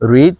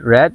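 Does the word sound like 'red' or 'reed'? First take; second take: reed; red. First: The vowel is long, like 'reed'. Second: The vowel is short, like 'red'. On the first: The action happens in the present. "Present ফর্মে use করব তখন আমরা রিড বলবো" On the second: The action happened in the past. "Past এবং past participle ফর্মে use করব তখন আমাদেরকে রেড বলতে হবে"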